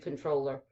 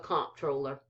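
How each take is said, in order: First: It is said the standard way, like controller. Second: It is said the Texas way, as comptroller. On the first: This is the officially correct pronunciation. "it's supposed to be controller" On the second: This is how people in Texas say it. "where this is Texas, we call it the comptroller"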